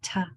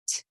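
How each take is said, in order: First: A t followed by a voiced vowel. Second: A bare voiceless t with only air. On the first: The speaker calls it wrong. "not ta" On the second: The speaker calls it right. "T is the sound"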